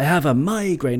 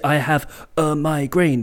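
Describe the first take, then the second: First: The first syllable of migraine is stressed. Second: The syllables of migraine are evenly weighted. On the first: The speaker calls it right. "but I have a migraine. That's how English works" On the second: The speaker calls it wrong. "you don't say I have a migraine because no one will understand"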